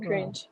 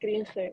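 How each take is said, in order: First: The word is said with an English accent. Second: The word is said with a Spanish accent. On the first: This is the original English word. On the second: This is how young Spanish speakers say it. "We say cringe, not"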